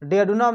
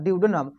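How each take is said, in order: First: The word begins with a short 'de' sound. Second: The word begins with a 'dyoo' sound. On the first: It is a casual, informal way of saying it. "शुद्ध English में नहीं बोलना है तो डेडनम बोल दीजिए" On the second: It is the proper English way of saying it. "एकदम शुद्ध ही इंग्लिश में बोलिएगा तो ड्यूडेनम"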